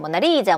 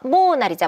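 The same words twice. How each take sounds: First: The stress is on the third syllable. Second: The stress is on the first syllable. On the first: "세 번째야" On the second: "첫 번째야"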